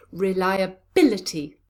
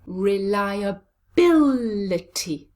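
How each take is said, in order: First: Said in the usual way. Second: Reliability very slow, with bil stretched and loud; exaggerated stress on bil in Reliability; stress on fourth syllable. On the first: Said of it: "it's on the fourth syllable". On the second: Shown as a demonstration. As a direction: hit and hold BIL in Reliability. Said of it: "Where is the stress?".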